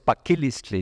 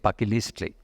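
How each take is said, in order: First: The stress is on the third-to-last syllable. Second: The stress is on the second-to-last syllable. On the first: This is how it is said in Orizaba. "en Orizaba es de una de las palabras esdrújulas" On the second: This is how it is not said in Orizaba. "no dicen paquilistli"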